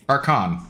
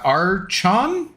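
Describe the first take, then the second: First: "Archon" said with a hard K, falling at the end; corrected name pronunciation. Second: "Archon" said with a CH as in church, drawn out and questioning; unsure name pronunciation. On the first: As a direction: settle on "Archon" as "ar-kon". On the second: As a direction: try "Archon" as "ar-chon", asking with a rise. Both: Real, not acted. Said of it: "hopefully I didn't butcher your name".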